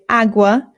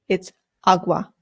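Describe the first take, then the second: First: The first vowel is an English-style vowel. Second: The first vowel is an open Spanish 'a'. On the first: The speaker calls it wrong. "There are some British people ... who say agua, and it is not correct" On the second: The speaker calls it right. "the A makes an A sound. It's agua"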